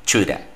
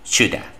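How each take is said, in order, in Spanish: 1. Have se reduce y se une en una sola palabra. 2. Have se reduce y se une en una sola palabra.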